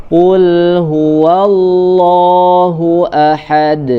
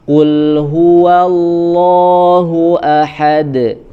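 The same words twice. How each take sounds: The two takes are said the same way.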